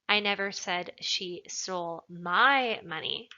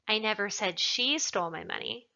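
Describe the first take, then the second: First: The word 'my' is emphasized. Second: The word 'she' is emphasized. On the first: She took someone else's money. "Implies that maybe she took somebody else's money" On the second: Someone else stole it. "Perhaps somebody else stole it"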